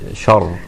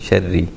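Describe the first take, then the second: First: The word ends with a heavy, strong R. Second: The R is light and soft, with a final vowel. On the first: The reader stops on this word. "when I stopped, I said shar, I made the Ra strong" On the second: The reader continues past this word. "when I continued, I said sharri, the Ra was soft"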